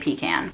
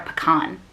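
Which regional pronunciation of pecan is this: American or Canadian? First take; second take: Canadian; American. First: It is said in the Canadian way. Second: It is said in the American way. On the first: "in Canada you say pecan" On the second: "I don't know if pecan's an American thing"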